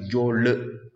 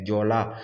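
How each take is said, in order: First: The word ends with an 'e' vowel. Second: The word ends with an 'a' vowel. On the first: This is how the people name themselves. "il va dire Diole" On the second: This is how outsiders say the name. "Les gens vont dire Diola"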